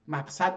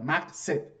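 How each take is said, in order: First: The vowel after the s is 'a'. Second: The vowel after the s is not 'a'. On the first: The speaker calls it wrong. "صد رو با فتحه بخونی غلطه" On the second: The speaker calls it right. "اسم مکان"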